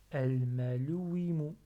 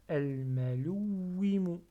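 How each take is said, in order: First: AL-MALOUWIMU gliding evenly, wi unstressed; without shadda. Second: AL-MALOUWIMU with the w held and pressed; with shadda. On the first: Teacher repeating it without shadda, no weight on wi. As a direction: say "Al-malouwimu" with a light, undoubled w. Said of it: "J'appuie pas sur le oui". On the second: Teacher contrasting it with shadda, w held long. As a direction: lean on the doubled w before "wimu" in "al-malouwimu". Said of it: "Mais j'ai avec shadda, je dis". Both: Shown as a demonstration.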